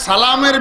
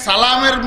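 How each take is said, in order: The two takes are said the same way.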